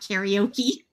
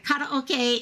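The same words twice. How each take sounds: First: The word has an English-style pronunciation. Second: The word has an Asian-style pronunciation. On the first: "not karaoke"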